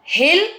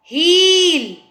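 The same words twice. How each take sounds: First: "हिल" with a short i, rising; quick short vowel in "हिल". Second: "हील" with the ee held long, high and loud; sustained ee in "हील". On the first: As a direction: keep "हिल" brief. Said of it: "छोटी आवाज़ आ रही है". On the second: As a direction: stretch the vowel of "हील". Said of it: "हील बोला है तो उसमें बड़ी". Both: Shown as a demonstration.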